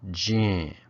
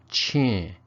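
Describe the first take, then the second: First: It begins with a voiced j sound. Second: It begins with an aspirated ch sound.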